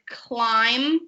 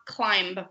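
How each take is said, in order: First: The word ends without a B sound. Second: The word ends with a B sound. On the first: The speaker calls it right. "then the B is silent" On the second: The speaker calls it wrong. "not climb"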